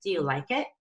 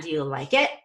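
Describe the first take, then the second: First: Energy on like, let it float up; light it. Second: It punched hard and loud at the end; pounded it. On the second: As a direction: pound the it at the listener. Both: Shown as a demonstration. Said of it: "Don't pound the it at me".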